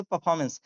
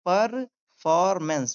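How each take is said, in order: First: परफॉर्मेंस joined up, Rs dropped; natural pronunciation. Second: परफॉर्मेंस broken into par-for-mens, both Rs sounded; syllable-by-syllable demo. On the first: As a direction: say परफॉर्मेंस as "puh-FAW-muns". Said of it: "अब इसको ऐसे बोलेंगे". (परफॉर्मेंस को जोड़कर "पफॉमेंस" बोलें) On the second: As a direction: spell out परफॉर्मेंस slowly by sound. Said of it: "देखिए परफॉर्मेंस". (परफॉर्मेंस को "पर-फॉर-मेंस" तोड़कर बोलें) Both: Shown as a demonstration.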